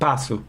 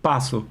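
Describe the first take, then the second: No difference in how they are said.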